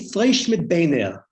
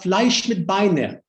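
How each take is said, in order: First: It is said in a Lithuanian Yiddish accent. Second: It is said in a Polish Yiddish accent. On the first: "the Litvaks ... would say"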